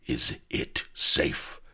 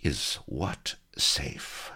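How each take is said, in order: First: Slow, urgent stage whisper; hoarse whisper. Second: Very slow, hushed, threatening question; silky menace. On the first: Admiral secretly asking his comrade, hoarse whisper. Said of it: "inquire of Avery in a hoarse whisper". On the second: Pirate cutting in on the captives' secret, silky menace. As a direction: breathe it slowly with silky menace. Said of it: "a silky voice cut menacingly in". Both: A narrator's reading.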